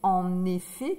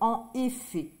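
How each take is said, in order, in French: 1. Le son n se lie au mot suivant. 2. Les deux mots se disent sans aucune liaison.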